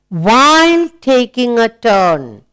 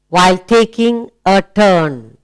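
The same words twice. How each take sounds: First: Slow and deliberate, word by word; slow read-aloud. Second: Said in the usual way. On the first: Shown as a demonstration. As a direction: read it out slowly for the class. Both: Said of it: "Let's read aloud".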